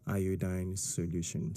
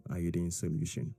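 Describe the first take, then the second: First: Said in the usual way. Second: "iodine" said as eye-oh-deen; the other common way of saying "iodine", ending like "seen"; alternative pronunciation. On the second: Shown as a demonstration. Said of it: "Some people will say".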